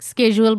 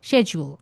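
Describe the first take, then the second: First: It is said in an American accent. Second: It is said in a British accent. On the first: "বলা হয় আমেরিকাতে" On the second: "ব্রিটিশে বলে"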